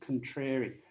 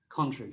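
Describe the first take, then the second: First: The stress is on the second syllable. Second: The stress is on the first syllable. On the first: A person who likes disagreeing for its own sake. "the stress is on the second syllable" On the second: The opposite of something. "first syllable stress"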